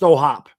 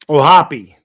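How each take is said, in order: First: The name ends on the hop sound. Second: The name ends with an added ee sound. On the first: The speaker calls it wrong. "Do you pronounce the E or is it just O'Hop?" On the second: The speaker calls it right. "You do pronounce the O'Hoppy"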